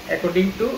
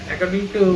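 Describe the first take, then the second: The two takes are said the same way.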